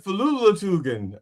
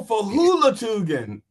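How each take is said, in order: First: "Falulatugan" with an L replacing the H; misheard pronunciation. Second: "Hulatugan" with an H sound at the start; corrected pronunciation. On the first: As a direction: say "Falulatugan" with LU in the second syllable. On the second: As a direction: say "Hulatugan" clearly with HU, not LU. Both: Shown as a demonstration. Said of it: "I thought you said Falulatugan".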